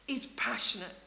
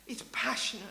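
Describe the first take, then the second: No difference in how they are said.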